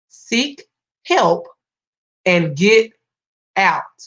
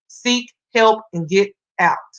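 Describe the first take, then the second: First: The phrase is said noticeably more slowly. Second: The phrase is said at a normal, quicker pace.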